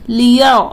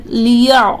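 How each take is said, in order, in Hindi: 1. र की आवाज़ भारी और भरी हुई है। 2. र की आवाज़ भारी और भरी हुई है।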